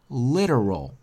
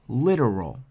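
No difference in how they are said.

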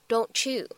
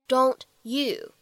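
First: The t and y merge into a ch sound. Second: The t and y sounds stay separate.

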